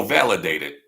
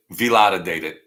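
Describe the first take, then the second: First: Said in the usual way. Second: "Validated" said loudly as vee-LAH-duh-dated; mispronounced validated. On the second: Pretend. Playing on the word for viewers, "Validated" as vee-LAH-duh-dated. Mangles the word, then corrects it.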